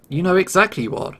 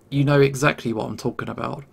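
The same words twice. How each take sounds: First: Higher-pitched, lightly pushed snap of accusation; a touch of high-pitched screeching; mild screech. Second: Said more gently, calming down; a touch of gentleness after an outburst; gentler. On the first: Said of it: "He screeches at me in his high-pitched voice". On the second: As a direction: ease off into a gentler repeat. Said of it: "He says more gently". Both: A narrator's reading.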